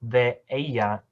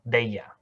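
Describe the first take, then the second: First: The two words are kept apart. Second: The two words run together as one.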